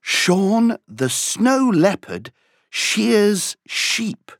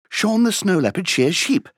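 First: It is said at a moderate pace. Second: It is said at a faster pace.

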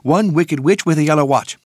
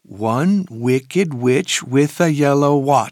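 First: It is said very fast. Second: It is said faster than normal.

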